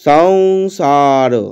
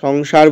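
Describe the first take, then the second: First: The final r sound is pronounced fully. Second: The final r sound is clipped short. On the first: The speaker calls it right. "রো রটা পূর্ণ পূর্ণ এইভাবে উচ্চারণ করব" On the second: The speaker calls it wrong. "আমরা কিন্তু সংসার বলছি না"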